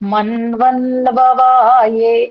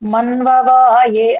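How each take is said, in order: First: The repeated 'nva' syllable is clearly kept. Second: The repeated 'nva' syllable is dropped. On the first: The speaker calls it right. "మన్వన్వవాయే అని ఉందనుకోండి" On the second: The speaker calls it wrong. "మన్వవాయే అనిపోతుంది"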